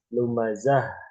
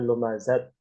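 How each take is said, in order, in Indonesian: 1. Kata ini berakhir dengan bunyi h. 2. Kata ini berakhir dengan bunyi t. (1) "Lumazah gitu kan" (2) "bukan lumazat"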